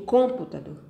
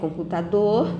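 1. A sílaba tônica é a primeira. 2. A sílaba tônica é a quarta. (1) "Eu digo computador? Não" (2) "se eu disser computador, eu sei que a última sílaba, dor, é a mais forte"

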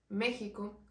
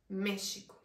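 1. La x suena como una h gutural. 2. La x suena como sh.

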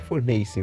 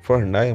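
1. A palavra termina com som de 'ace'. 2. A palavra termina com som de 'aia'. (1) "Mas é fornace" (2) "eu tenho um costume de falar assim"

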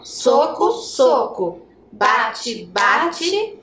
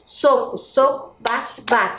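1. As palavras são ditas devagar. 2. As palavras são ditas rapidamente. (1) "bem devagarinho" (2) "Vamos brincar mais rápido agora?"

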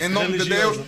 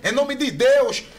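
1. É dita sem sotaque brasileiro. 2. É dita com sotaque brasileiro.

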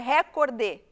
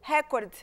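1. A palavra termina com um som de vogal acrescentado. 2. A palavra termina em consoante, sem vogal. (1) "Para nós é recordé" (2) "com esse D mudo"

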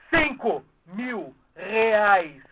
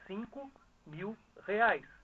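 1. Ela é dita bem mais alto. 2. Ela é dita em volume normal.

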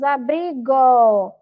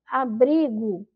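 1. A vogal final soa como um 'o' completo. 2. A vogal final soa como um 'u' fraco. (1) "porque nós não pronunciamos abrigo" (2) "Nós pronunciamos abrigo. Então, dá a impressão que tem um U ali no final"

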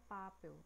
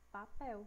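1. A sílaba tônica é a primeira. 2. A sílaba tônica é a última. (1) "A gente não fala papel" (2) "A gente fala papel"

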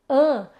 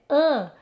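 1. A vogal é nasal, com ar passando pelo nariz. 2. A vogal é nasal, com ar passando pelo nariz.

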